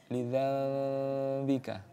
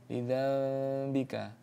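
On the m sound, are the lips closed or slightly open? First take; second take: open; open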